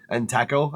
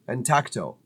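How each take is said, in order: First: The name ends with a 'taco' sound. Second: The name ends with a 'tacto' sound. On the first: The speaker calls it wrong. "I've been saying" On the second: The speaker calls it right. "I've been saying that wrong all this time"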